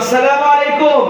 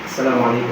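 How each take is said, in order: First: It is said loudly, with a raised voice. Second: It is said very softly, at lowest volume. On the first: "এই যে জোরে বললাম" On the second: "সর্বনিম্ন আওয়াজটা আমি বললাম"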